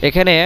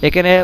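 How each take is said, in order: No difference in how they are said.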